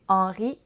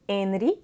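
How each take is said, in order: First: The E and N form one nasal vowel. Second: The E is said separately from the N. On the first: The speaker calls it wrong. "on ne va pas prononcer Henri" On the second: The speaker calls it right. "on doit prononcer le E séparément du N"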